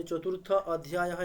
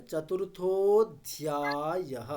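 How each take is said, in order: First: চতুর্থ অধ্যায়ः split apart, visarga sounded; broken-up চতুর্থ অধ্যায়ः with ending sounded; wrong pronunciation. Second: চতুর্থ অধ্যায়ः joined, drawn out slowly; slow careful চতুর্থ অধ্যায়ः without split; correct pronunciation. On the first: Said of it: "এরকম বলেছেন". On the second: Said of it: "ওটা বলতে হবে যে". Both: Shown as a demonstration.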